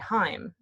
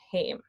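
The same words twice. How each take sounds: First: The vowel is not an 'ay' sound. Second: The vowel is an 'ay' sound. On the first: This is how Norwegian or German would say it. The speaker calls it wrong. "the Norwegian um, or the German thing would be to say heim" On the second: This is how Icelandic says it. The speaker calls it right. "heim is how you do it in Icelandic"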